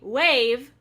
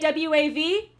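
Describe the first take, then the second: First: It is said as a single word, wave. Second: It is spelled out as three separate letters. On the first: "Do you say wave?" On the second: "do you say W A V?"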